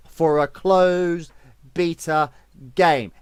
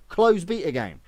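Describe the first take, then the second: First: CLOSED, BETA, GAME each hit hard, slowly, with gaps; emphatic word by word. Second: "closed beta game" restated firmly in one run, CLOSED leading; emphatic repeat. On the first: Streamer hammering home the prize money point, slow emphatic "closed... beta... game". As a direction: punch "closed", "beta" and "game" separately and loudly. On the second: Streamer underlining the point, "closed beta game" as one firm phrase. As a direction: lean on "closed", then run straight through "beta game". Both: Real, not acted. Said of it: "Emphasis, ting, ting, ting".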